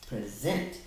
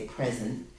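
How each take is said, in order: First: The stress is on the second syllable. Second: The stress is on the first syllable. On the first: It means to give someone something. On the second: It means being here rather than absent. "it's also the way we say it"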